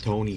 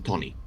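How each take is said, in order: First: The first vowel glides like a diphthong. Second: The first vowel is a flat, pure vowel. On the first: This is the original name from the English book. "instead of Tony" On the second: This is the name as the Serbian-speaking family adapted it. "Serbian doesn't really do, shall we say, rolling uh, vowels that much"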